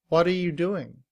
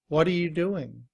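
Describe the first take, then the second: First: The word 'are' shrinks to a weak 'uh'. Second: The word 'are' shrinks to a weak 'uh'.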